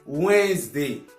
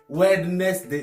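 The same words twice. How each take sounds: First: The d and middle e are left silent. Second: Every letter is pronounced, including the d. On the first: The speaker calls it right. "on prononce juste Wednesday" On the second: The speaker calls it wrong. "à lire toutes les lettres qui sont dans le mot. Wednesday, non"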